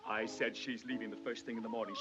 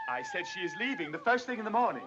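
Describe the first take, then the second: First: It is said in a low voice. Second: It is shouted loudly.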